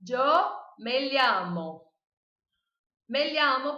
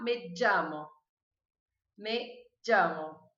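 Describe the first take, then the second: First: "llamo" said as "liamo", with an l plus i; slow, loud mistaken "me llamo" as "me liamo"; wrong pronunciation. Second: "llamo" with a hard j sound at the start; "llamo" opened like English J; Colombian pronunciation. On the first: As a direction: say the ll of "llamo" like the lh in "lhama". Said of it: "não quero ver vocês falando". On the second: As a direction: say "me llamo" as "me djamo", slowly and clearly. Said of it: "E na Colômbia eles vão falar". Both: Shown as a demonstration.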